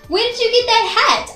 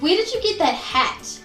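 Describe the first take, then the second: First: The voice rises in pitch at the end. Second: The voice falls in pitch at the end. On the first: The speaker is excited and likes the hat. "then we would use a rising intonation" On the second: The speaker feels disgust toward the hat. "then we'd often use a falling intonation"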